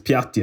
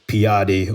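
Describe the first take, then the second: First: It is said with an Italian pronunciation. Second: It is said with an anglicized pronunciation. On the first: The speaker calls it right. "being able to actually say it correctly" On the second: The speaker calls it wrong. "Instead of saying Piatti"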